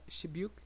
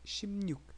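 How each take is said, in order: First: The middle has a plain b sound. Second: The middle has a nasal mn sound. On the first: The speaker calls it wrong. "it's not Shibyuk" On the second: The speaker calls it right. "it's Shimnyuk"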